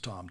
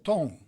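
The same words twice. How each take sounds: First: It is said with an English pronunciation. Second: It is said with a Portuguese pronunciation. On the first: It is a name. "in the States, everybody called me Tom" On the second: It means tone. "in Portuguese, the pronunciation of Tom, T O M, is Tom"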